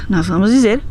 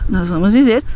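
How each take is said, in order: The two takes are said the same way.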